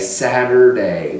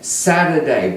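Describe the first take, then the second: First: The R sound is strongly heard. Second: The R sound is barely heard. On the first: "in America they'll say Saturday with a more er sound" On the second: "tomorrow is Saturday"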